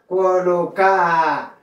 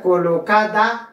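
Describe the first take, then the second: First: Colocar said "co-lo-CAA", no R, falling; dropped D. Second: Colocada with the D sounded, "co-lo-CA-da"; "colocada" ending in a clear "-ada"; full D. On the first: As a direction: stretch colocar to a long open final A. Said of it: "notre deuxième lettre". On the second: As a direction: say colocada in full, both A vowels split by D. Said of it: "ou qu'à prononcer ou qu'à pas". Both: Shown as a demonstration.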